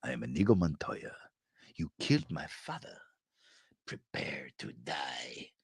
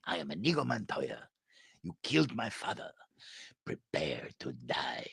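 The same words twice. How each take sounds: First: Lower, softer, ending in a whisper; menacing build down to a whisper; Inigo Montoya line. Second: Softer, ending in a hushed whisper; Inigo Montoya line again. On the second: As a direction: hush it down to a threat. Inigo quote repeated. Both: Retold or imitated.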